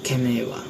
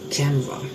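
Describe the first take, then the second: First: Every syllable is pronounced in full. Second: A middle vowel is dropped from the word. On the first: "the first word is camera" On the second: "we pronounce it uh"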